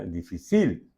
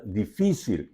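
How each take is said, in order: First: Difícil mis-stressed on CIL; difícil demonstrated with the weight on its final syllable; stress on last syllable. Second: Difícil with the weight on FI; difícil, middle-stressed as a teaching example; stress on middle syllable. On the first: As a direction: say di-fi-CIL, landing on the end of difícil. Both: Shown as a demonstration. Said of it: "si vos no pone acento arriba difícil".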